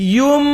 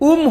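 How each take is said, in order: First: The syllable starts with a Y sound. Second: The syllable starts with a glottal stop. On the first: The speaker calls it right. "উম হবে না ইউম" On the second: The speaker calls it wrong. "তাহলে হামজার মতো হয়ে যাইব"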